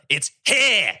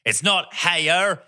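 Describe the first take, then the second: First: "here" as one vowel with no final R; Australian pronunciation. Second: "heyer" drawn out with a hard American R; mock American pronunciation. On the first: Retold or imitated. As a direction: insist on Australian "here", high-pitched. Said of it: "It's not heyer, it's here". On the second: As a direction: slowly correct a child, mimicking American "heyer". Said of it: "look us in the eye and goes".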